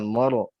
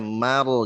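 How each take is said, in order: First: The first syllable sounds heavy and thick. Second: The first syllable sounds light and thin. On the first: The speaker calls it wrong. "jangan moro" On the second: The speaker calls it right. "mimnya tipis"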